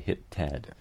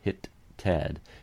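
First: The two T sounds merge into one held T with no separate release. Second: The T of 'hit' is released sharply on its own before 'Ted'. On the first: It is ordinary speech with no special emphasis. "most of the time you're going to say hit Ted" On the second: The word 'hit' is being emphasized. "to really set off that word, hit Ted, you could use an ejective"

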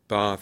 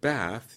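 First: The vowel is long and open, like father. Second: The vowel is short and front, like cat. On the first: "an RP speaker says bath" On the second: "instead of bath"

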